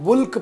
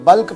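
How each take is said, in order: First: The vowel sounds like the one in 'put'. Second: The vowel sounds like the one in 'but'. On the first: "कुछ लोग उसको बुल्क pronounce करते हैं" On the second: "कुछ लोग बल्क pronounce करते हैं"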